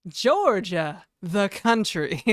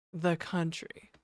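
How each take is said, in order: First: Loud, slow, stressing the country; quoting a Community character, loud and drawn out; emphatic TV quote. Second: Slow southern accent on the country. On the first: Retold or imitated. Streamer quoting a Community character to chat, loud and emphatic. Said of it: "what's his name is like". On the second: Shown as a demonstration. Streamer demoing the line for chat, slow southern accent. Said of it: "say it in a southern accent".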